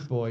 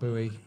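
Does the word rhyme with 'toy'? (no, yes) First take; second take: yes; no. First: The word rhymes with toy. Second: The word does not rhyme with toy. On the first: The speaker calls it right. "It is boy" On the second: The speaker calls it wrong. "it's not buoy"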